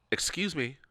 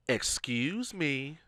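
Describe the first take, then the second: First: Said in the usual way. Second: Drawn-out, slow call for attention; slow, pointed second try; insistent excuse me. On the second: Retold or imitated. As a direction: stretch it out to get noticed. Repeats it to ignored man.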